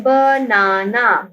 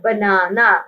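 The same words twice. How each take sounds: First: banana drawn out as ba-naa-naa; teacher breaking banana into ba, naa, naa; syllable by syllable. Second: Said in the usual way. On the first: Shown as a demonstration. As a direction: say banana slowly in three separate beats. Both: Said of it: "हमारे पास three syllables हैं".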